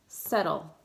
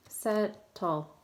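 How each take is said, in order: First: Said in the usual way. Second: "Settle" in two parts, set, tle; split into syllables. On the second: Shown as a demonstration. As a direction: break "Settle" apart with a crisp second T. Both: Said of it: "where to break it apart".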